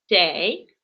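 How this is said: The word begins with a ts sound. This is how speakers of a fourth dialect say it. "четвертый вид диалекта. Там вместо буковки ч говорят ц"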